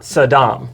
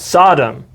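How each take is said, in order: First: The stress is on the second syllable. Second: The stress is on the first syllable. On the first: The speaker calls it wrong. "not the second" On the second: The speaker calls it right. "the emphasis is on the first syllable"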